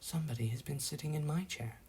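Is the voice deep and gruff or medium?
medium. It is said in a medium, ordinary voice.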